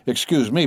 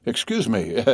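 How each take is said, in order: First: Laughing. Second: Said in the usual way. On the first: Acted. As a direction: excuse me with a laugh.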